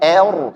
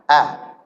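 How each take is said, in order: First: The vowel is thinned too far, like 'e'. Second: The vowel is a plain, light 'a'. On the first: The speaker calls it wrong. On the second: The speaker calls it right.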